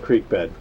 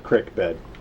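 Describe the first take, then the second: First: Creek is said with a long ee vowel. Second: Creek is said as crick, the Midwestern way.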